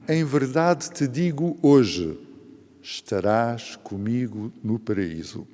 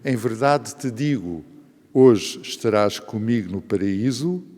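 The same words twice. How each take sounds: First: The pause comes after the word hoje. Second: The pause comes before the word hoje.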